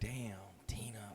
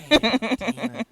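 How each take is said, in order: First: It is said in his normal voice. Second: It is said imitating Martin's voice.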